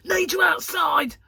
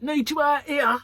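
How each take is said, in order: First: Imitating Gary's sudden shout, slow and loud; mock urgent shout. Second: Imitating Gary, loud but a bit less; urgent call. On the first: Husband bursting in calling wife outside, urgent shout. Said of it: "he goes". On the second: Husband calling wife out of filming, loud call. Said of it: "Or like".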